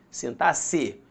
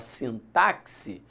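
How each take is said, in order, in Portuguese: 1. O x é pronunciado com som de 's'. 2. O x é pronunciado com som de 'ks'. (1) "o X tem som de C" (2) "você está cometendo um erro"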